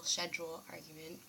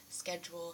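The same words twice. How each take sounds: First: Schedule said with a soft sh, SHED-jool; schedule starting with sh; British pronunciation. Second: Schedule said with a hard sk, SKED-jool; schedule with sk at the start; American pronunciation. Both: Shown as a demonstration. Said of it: "the schedule, schedule argument".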